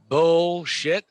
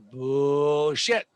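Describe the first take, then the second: First: The word is said at normal speed. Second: The word is said slowly.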